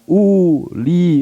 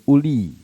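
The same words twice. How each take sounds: First: The first vowel is drawn out long. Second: The first vowel is short. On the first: The speaker calls it wrong. "Bukan uli, bukan begitu" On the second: The speaker calls it right. "u-nya bacanya pendek"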